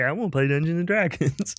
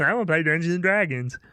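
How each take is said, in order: First: It is said in a put-on character voice. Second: It is said in a normal speaking voice.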